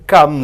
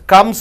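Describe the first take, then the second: First: The word ends with a buzzing Z sound. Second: The word ends with a hissing S sound. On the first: "S is changed into Z" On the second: "S is changed into Z"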